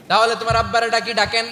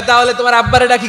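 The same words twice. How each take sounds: First: Said in the usual way. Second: Playful suggestion. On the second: Acted. Prophet's quote in story, first take.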